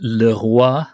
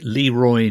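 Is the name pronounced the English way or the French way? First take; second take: French; English. First: The name is said with a French pronunciation. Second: The name is said with an English pronunciation. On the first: "as in the French pronunciation for the king" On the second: "It could be Leroy"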